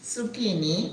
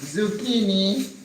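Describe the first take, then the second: First: The word begins with a hissing S sound. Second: The word begins with a buzzing Z sound. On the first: This is the Spanish word. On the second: This is the English word.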